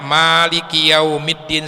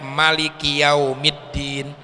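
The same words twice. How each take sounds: First: The vowel after the m is long. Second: The vowel after the m is short. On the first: "Kalau dibaca panjang" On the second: "Kalau mimnya dibaca pendek"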